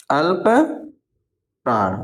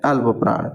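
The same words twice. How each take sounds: First: Drawn-out, syllable by syllable dictation; spelled-out slow teacher dictation. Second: Said in the usual way. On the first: Shown as a demonstration. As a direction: break the word apart slowly for the class. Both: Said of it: "एक होता है अल्प प्राण".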